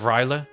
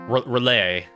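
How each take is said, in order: First: The name begins with a 'rye' sound. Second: The name begins with a 'ree' sound. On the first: The speaker calls it wrong. "I'm pronouncing as if there's like it's like R Y" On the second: The speaker calls it right. "Relay would be pr probably more the closest"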